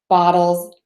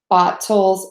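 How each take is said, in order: First: The middle consonant is a quick D-like flap. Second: The middle consonant is a full, crisp T. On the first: The speaker calls it right. "we would say the D, or the flap T" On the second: The speaker calls it wrong. "we don't say"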